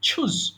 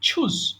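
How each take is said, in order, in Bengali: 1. প্রথম ধ্বনিটি aspirated ch। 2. প্রথম ধ্বনিটি aspirated ch।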